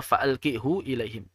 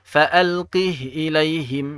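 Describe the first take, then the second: First: The final h is followed by a u vowel. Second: The final h is closed with no vowel. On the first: The speaker calls it wrong. "Tidak dibaca demikian" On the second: The speaker calls it right. "tetap dibaca sukun"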